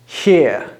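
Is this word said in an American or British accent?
American. One vowel sound with an R at the end. "In American English, this would just be one sound and the R at the end"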